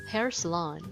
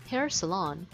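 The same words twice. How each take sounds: No difference in how they are said.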